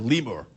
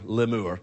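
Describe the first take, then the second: First: It is said with a plain English pronunciation. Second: It is said with a French-sounding pronunciation.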